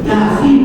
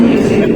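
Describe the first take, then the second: First: The first vowel is a clear 'a'. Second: The first vowel sounds like 'e'. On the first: The speaker calls it right. "nggak boleh itu" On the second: The speaker calls it wrong. "orang kami guderuk Yesin Yesin dari mana Yesin"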